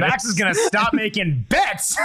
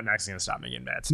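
First: Bold declaration. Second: Much lower and softer mumble; quiet mumble. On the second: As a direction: mutter it under your breath. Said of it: "There we go". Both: Shown as a demonstration.

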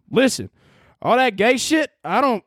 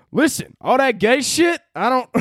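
First: Hammed-up Southern accent; good Southern accent. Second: Put-on first stab at a Southern accent, higher-pitched; tentative Southern accent. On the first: Hardcore Christian objecting, hammed-up Southern accent. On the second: Hardcore Christian objecting, first try at a Southern accent. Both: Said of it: "let me get into my good Southern accent".

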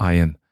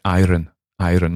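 First: Said in the usual way. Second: IRON with the R sounded before the vowel, "eye-run"; Scottish-style iron. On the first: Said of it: "like they say in Scotland for iron". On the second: Retold or imitated. Imitating grandmother's old northern IRON, R sounded. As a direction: say IRON as in Scotland, R pronounced. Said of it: "like they say in Scotland".

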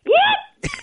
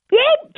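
First: Very high sportscaster whoop; high, whooping catchphrase impression; Chris Berman. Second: High-pitched catchphrase whoop; first stab at a sportscaster's whoop; Chris Berman. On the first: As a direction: redo the whoop, pitched way up. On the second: Acted. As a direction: let out a high, impersonated whoop. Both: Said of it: "one of those Chris Berman".

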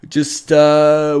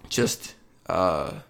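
First: Words stretched through a real yawn. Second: Said in the usual way. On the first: Real, not acted. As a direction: talk mid-yawn, mouth wide open. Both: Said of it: "yawning there".

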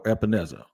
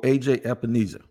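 First: Epenesa with a short "e" in the stressed syllable; alternative pronunciation. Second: Epenesa with a long "ee" in the stressed syllable; first pronunciation attempt. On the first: Host offers another guess, Epenesa as "ep-uh-NEZ-uh". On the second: Host tries a player's name, Epenesa as "ep-uh-NEE-suh". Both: Shown as a demonstration. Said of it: "however you say it".

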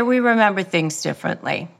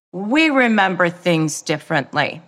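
First: Calm, no emotion. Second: Said in the usual way. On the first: Shown as a demonstration. Calm reply to a gaslighting partner, even and unemotional. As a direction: state it flatly calm, never raising your voice. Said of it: "Never put your emotion into it". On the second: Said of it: "you can start to say things like".

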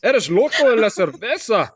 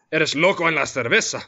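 First: High-pitched, hammed-up Scottish accent on Spanish; exaggerated Scottish-accented Spanish. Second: Spanish with a light Scottish accent, slightly raised pitch. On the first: Host repeats the Spanish line on request, hammed-up high Scottish accent. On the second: Host shows off a bilingual punchline, light Scottish-accented Spanish. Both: Shown as a demonstration. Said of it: "in Spanish in a Scottish accent".

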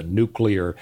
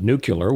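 First: Said in the usual way. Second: "nuclear" said as "nucular"; mispronounced nuclear. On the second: Retold or imitated. Quoting a president's slip, "nuclear" mispronounced as "nucular". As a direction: say "nuclear" with the last syllables swapped, NOO-kyuh-ler. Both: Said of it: "He, he called it nuclear".

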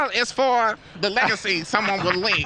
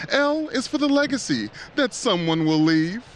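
First: A light take on Katt Williams; lightly voiced comedian cadence; Cat Williams impression. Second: Rising dramatic poem reading; Edgar Allan Poe voice. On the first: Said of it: "trying to do my Cat Williams". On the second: Acted. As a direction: recite like a gothic poet. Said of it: "get my Edgar Allan Poe voice on".

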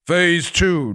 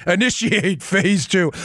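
First: Said in the usual way. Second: Slow, even automaton robot voice. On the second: Pretend. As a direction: intone it like a machine. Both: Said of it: "automaton robot voice".

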